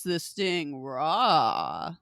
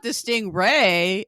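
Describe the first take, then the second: First: "sting raw" ending in a long, slow AW; "sting raw" pun. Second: "stingray" ending in RAY; "stingray" said normally. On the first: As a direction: draw out "raw" in "sting raw" instead of ray. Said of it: "I ended up calling it the sting raw". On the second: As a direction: say "stingray" with the usual long A, rhyming with day. It's not the stingray. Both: Shown as a demonstration.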